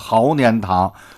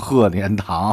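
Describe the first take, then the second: First: It uses the Beijing dialect reading of the first syllable. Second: It uses the standard Mandarin reading of the first syllable. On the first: The speaker calls it right. "念毫年堂" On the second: The speaker calls it wrong. "不能念成鹤年堂"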